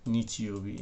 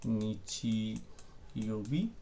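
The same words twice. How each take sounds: First: Said in the usual way. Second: निचियोबी stretched very slowly, every syllable held; drawn out slowly. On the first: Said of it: "इसको क्या बोलते हैं". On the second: Shown as a demonstration. Teacher saying निचियोबी slowly while writing it down. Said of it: "तो मैं ऐसे लिख देता हूँ".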